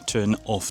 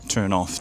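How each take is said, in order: First: The two words are said separately. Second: The two words are run together smoothly.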